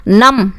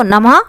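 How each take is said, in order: First: Said in the usual way. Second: नमः ending in an audible "ha" breath; visarga ending. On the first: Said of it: "नम में विसर्ग लगा दो". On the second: Shown as a demonstration. Teacher adding visarga to the word, नमः with an "ha" ending. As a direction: close नमः on a short h sound with an echoed vowel. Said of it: "इसके उच्चारण ह की आवाज़ आती है".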